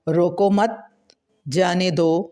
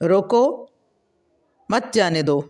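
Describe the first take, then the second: First: The pause comes after the word 'mat'. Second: The pause comes after the word 'roko'. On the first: Do not stop it; let it go. "इसको रोको मत जाने दो" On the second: Stop it; do not let it go. "इसको रोक लो, जाने ना दो।"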